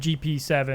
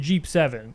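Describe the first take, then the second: First: GP is said as two separate letters. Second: GP is said as one word, Jeep. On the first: This is how the speaker's group says it. "So we'll say" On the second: This is how other people say it. "other people will say it's a Jeep seven"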